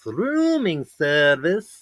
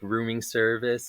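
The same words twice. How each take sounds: First: It is said with exaggerated, over-the-top O's. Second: It is said plainly, without a put-on accent.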